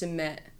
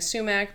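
First: The word trails off without a k sound. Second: The word ends with a clear k sound. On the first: "we don't say the k or the k sound. So it kind of just trails off" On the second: "switching in and out of saying sumac"

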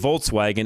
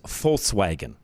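First: The word begins with a V sound. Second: The word begins with an F sound. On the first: The speaker calls it wrong. "We always say Volkswagen" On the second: The speaker calls it right. "It's actually supposed to be pronounced with an F"

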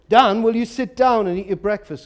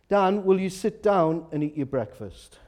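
First: It is said even more forcefully and intensely. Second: It is said a little more firmly.

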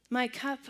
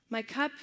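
Both takes have the same delivery.

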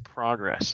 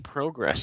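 First: It is pronounced the American way. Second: It is pronounced the Canadian way. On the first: "I say progress like an American" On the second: "I don't say progress"

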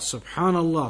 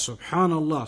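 No difference in how they are said.

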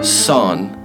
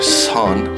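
First: The S is plain, with no extra breath. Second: The S has a strong puff of breath. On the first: "which is pretty straightforward" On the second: "Almost like you're putting an H in there"

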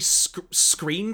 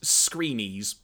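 First: The surname is said as one syllable. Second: The surname is said with two syllables. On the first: The speaker calls it wrong. "I think it's pronounced" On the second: The speaker calls it right. "Apparently, the last name is pronounced Screenies"

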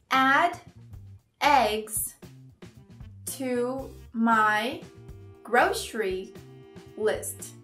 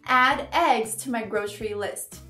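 First: The sentence is spoken at a slower pace. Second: The sentence is spoken at a fast pace. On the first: "uma versão um pouquinho mais devagar" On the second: "você tá falando muito rápido"

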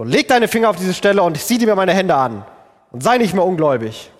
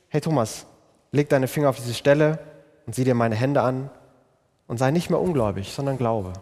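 First: It is said in a reproachful, accusing tone. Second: It is said in a warm, kindly tone.

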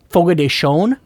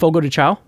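First: The last word ends in a nasal 'own' sound. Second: The last word ends in a plain 'ow' sound. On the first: "I heard somebody on the radio the other day pronounce it Fogo de Chone" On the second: "I'm just going to say it the way I think it's pronounced"

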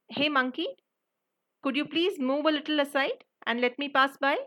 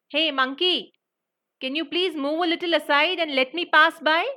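First: It is said at a quieter volume. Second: It is said at a louder volume.

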